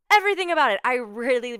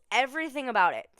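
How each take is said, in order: First: Much higher and louder, bursting with delight; excited emphasis. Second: Said in the usual way. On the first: Real, not acted. Host gushing to listeners about the movie, excited. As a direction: shout it out with real glee.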